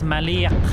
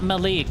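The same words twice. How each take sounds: First: The name has an Arabic pronunciation. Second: The name has an American English pronunciation. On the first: The speaker calls it right. "you have to say it in Arabic" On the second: The speaker calls it wrong. "It's not Malik"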